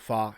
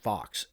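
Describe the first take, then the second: First: The word ends on a vowel, no x sound. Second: The word ends with a clear x sound. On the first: The speaker calls it right. "You pronounce that fa" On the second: The speaker calls it wrong. "No, it's not Fox"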